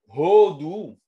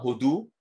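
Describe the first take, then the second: First: The stress is on the first syllable. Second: The stress is on the last syllable. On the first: It means giving praise to God. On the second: It means the country India.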